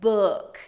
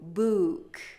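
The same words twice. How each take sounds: First: The vowel is a short, forward 'uh' sound. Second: The vowel is a pulled-back 'oo' sound. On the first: "Book is pulled forward a little bit. So uh, uh" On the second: "book is pulled back a little bit. Ooh, ooh"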